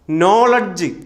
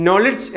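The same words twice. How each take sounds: First: നോളഡ്ജ് with long "noh" and "ladj-uh"; common mispronunciation. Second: നോളഡ്ജ് with short "no" and "lich"; correct pronunciation. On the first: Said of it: "തെറ്റ്". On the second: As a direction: say നോളഡ്ജ് as "NOL-ich". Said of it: "എന്നാണ്". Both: Shown as a demonstration.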